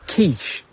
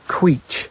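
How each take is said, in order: First: The word begins with a plain K sound. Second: The word begins with a KW sound. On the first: "Why do we say quiche" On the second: "which obviously in English is the qu sound, so it's queech"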